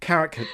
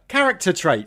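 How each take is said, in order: First: "Character" fumbled, its last syllable tripped over; botched word. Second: Said in the usual way. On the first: Real, not acted. Flustered co-host retrying a word they can't say, botched word. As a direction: stumble on the ending of "Character". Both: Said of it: "I can't say character".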